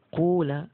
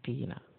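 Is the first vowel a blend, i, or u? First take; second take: u; i. First: The first vowel is a rounded u sound. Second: The first vowel is a plain i sound. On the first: "dengan ucapan kula, pakainya wawu ya" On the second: "Qila pakainya qila"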